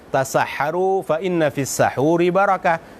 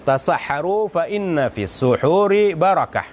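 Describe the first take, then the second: First: The key word is said with an 'a' vowel. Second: The key word is said with a 'u' vowel. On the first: There is blessing in the food eaten at the predawn meal. "Kalau dibaca fathah" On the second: There is blessing in the act of eating the predawn meal. "Itu kalau dibaca suhur"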